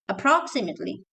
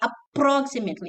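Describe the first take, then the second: First: The p sound is short and quick. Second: The p sound is doubled and stressed. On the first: The speaker calls it right. "you say appro approximately" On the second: The speaker calls it wrong. "You should not say approximately"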